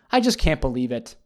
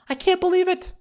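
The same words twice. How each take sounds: First: Said in the usual way. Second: "believe" squealed very high; mock outrage squeal. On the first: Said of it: "repeat with different pitch". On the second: Vlogger scandalized by the cheating husband: high mock squeal. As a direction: squeak the line in hammed-up disbelief. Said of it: "mock outrage repeat".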